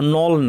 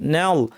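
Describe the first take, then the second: First: The vowel sounds heavy and rounded. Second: The vowel sounds thin and light. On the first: The speaker calls it wrong. "নল না" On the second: The speaker calls it right. "না নাল"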